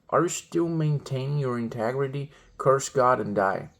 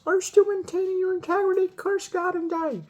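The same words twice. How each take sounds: First: It is said in the speaker's ordinary voice. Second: It is said in a put-on woman's voice.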